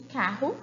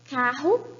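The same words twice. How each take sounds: First: The r sound is voiceless. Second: The r sound is voiced. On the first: "com desvozeado" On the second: "com vozeado"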